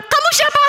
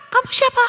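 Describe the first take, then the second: First: Very high, demanding call; annoyed shout. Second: Echo. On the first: Theo challenges the unseen voice, annoyed. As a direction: call out crossly to a stranger. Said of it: "Theo semakin jengkel". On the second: Valley echo answers Theo's question, echoing. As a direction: bounce the call back. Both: A narrator's reading.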